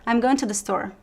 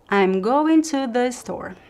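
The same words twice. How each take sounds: First: The words run together quickly as one. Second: Each word is said separately and fully. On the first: The speaker calls it right. "It's really quick" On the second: The speaker calls it wrong. "That's how beginner level English learners would want you to pronounce this sentence"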